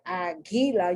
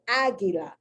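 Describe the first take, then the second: First: The stress is on the second syllable. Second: The stress is on the first syllable. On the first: The speaker calls it wrong. "the accent should have been on agi, gi, gi, gi. But that's not how you don't say agila" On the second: The speaker calls it right. "you say agila"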